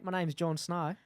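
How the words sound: It is spoken in an Australian accent. "Do it in a Australian"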